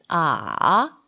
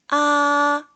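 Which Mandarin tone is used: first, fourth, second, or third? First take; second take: third; first. First: The pitch dips low, then rises. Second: The pitch stays high and level. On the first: "3성은" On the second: "1성은"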